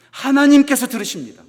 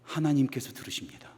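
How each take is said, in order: First: Loud proclamation. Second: Breathy unvoiced whisper, very soft. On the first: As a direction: proclaim it to the whole church. (크게 힘주어 선포하듯) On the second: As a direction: say it as a hushed secret. (속삭이듯 조용히) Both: Shown as a demonstration. Repeated line, whispered then loud.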